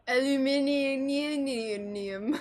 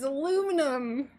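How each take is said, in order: First: It is pronounced the British way. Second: It is pronounced the American way.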